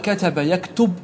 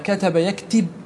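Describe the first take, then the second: First: The second verb's middle vowel is a u sound. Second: The second verb's middle vowel is an i sound. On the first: "بالضم" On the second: "بالكسر"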